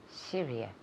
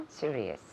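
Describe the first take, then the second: Both takes have the same delivery.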